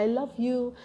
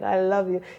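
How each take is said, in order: First: It is said in a warm, sincere way. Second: It is said in a casual, dismissive way. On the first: The feeling is meant seriously. The speaker calls it right. "say it properly" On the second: The feeling is not taken seriously. The speaker calls it wrong. "yeah, right"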